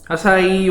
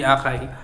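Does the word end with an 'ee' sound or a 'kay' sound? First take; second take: ee; kay. First: The word ends with an 'ee' sound. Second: The word ends with a 'kay' sound. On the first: The speaker calls it right. "acai yung pronunciation dyan" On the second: The speaker calls it wrong. "na hindi akay"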